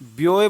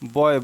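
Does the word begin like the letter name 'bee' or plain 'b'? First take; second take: bee; plain b. First: It begins with a 'bee'-like glide before the vowel. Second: It begins with a plain 'b' before the vowel. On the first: The speaker calls it wrong. "क्या हम इसको ब्योए बोलते हैं? नहीं बोलते ना।" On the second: The speaker calls it right. "इसका उच्चारण हमारा क्या होता है? बा"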